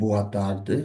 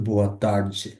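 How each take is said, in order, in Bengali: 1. 'tarde'-তে d-এর উচ্চারণ d-এর মতো। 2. 'tarde'-তে d-এর উচ্চারণ j-এর মতো। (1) "আমরা যদি বলি boa tarde" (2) "ওরা ডি কে জে উচ্চারণ করে"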